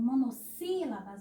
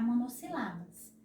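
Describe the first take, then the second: First: Said in the usual way. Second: Monossílabas as mo-no-si-LA-bas; wrong stress on LA. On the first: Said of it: "Caso vocês não coloquem acento agudo". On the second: Shown as a demonstration. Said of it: "vai ficar". (monossílabas com a tônica no LA: monossilábas)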